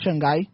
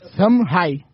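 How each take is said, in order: First: The name is said the usual Portuguese way. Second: The name is said the Mandarin-style way. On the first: The speaker calls it wrong. "não é Xangai" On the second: The speaker calls it right. "Aprendi como se fala"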